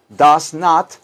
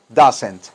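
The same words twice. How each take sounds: First: "does not" said as two separate words, does stressed; full form. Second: "doesn't" said as one word, falling; contracted form. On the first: Teacher contrasting the full form, two words. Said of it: "se pegaron todas las letras". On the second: Teacher giving the contracted form as one word. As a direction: fold "doesn't" into a single word. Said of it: "para que quede una palabra". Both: Shown as a demonstration.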